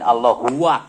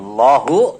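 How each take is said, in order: First: The word ends with an extra huwa syllable. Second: The word ends in a short u sound. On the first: The speaker calls it wrong. "lain Allah huwa" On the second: The speaker calls it right. "tidak ada pemisah lafaz huwa"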